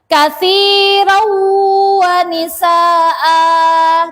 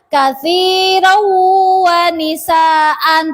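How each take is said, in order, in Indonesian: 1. Kata terakhir berakhir dengan vokal panjang a. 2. Kata terakhir berakhir dengan bunyi n. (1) "Mat iwad cara bacanya seperti mat asli" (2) "Tidak boleh dibaca katsirau wa nisaan, tidak boleh"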